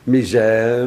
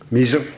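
First: It is said with a French pronunciation. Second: It is said with a plain Dutch pronunciation.

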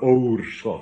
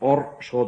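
First: The first vowel is long. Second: The first vowel is short. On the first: The speaker calls it right. "maar oerschot, lang dus" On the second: The speaker calls it wrong. "niet orschot"

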